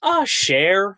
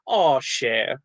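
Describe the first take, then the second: First: Mock bad New Orleans accent, pitched higher; botched New Orleans accent. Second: New Orleans endearment, at an easy pitch; New Orleans catchphrase. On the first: Mimicking movie actors' catchphrase, badly faked New Orleans accent. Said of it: "all of the actors in the movie are just going". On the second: Retold or imitated. Actor quoting locals' pet phrase, New Orleans accent. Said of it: "something they say where they go".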